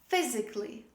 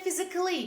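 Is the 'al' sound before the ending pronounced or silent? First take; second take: silent; pronounced. First: The 'al' is silent before 'ly'. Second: An extra 'al' syllable is pronounced before 'ly'. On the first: The speaker calls it right. "Say physically" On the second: The speaker calls it wrong. "Don't say physically, don't pronounce the letter A"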